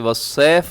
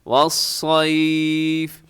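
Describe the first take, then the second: First: The s sound is short and single. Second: The s sound is held long and doubled. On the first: The speaker calls it wrong. "इसे वसैफ ना पड़िएगा" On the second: The speaker calls it right. "कैसे? वस्सैफ वस्सैफ"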